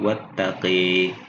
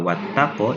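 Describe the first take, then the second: First: The final vowel leans toward an 'e' sound. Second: The final vowel is an open 'a' sound.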